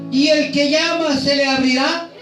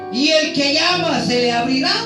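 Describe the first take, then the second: No difference in how they are said.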